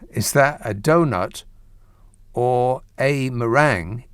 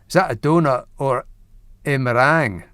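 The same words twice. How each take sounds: First: It is said in the speaker's plain accent. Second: It is said in a Scottish accent.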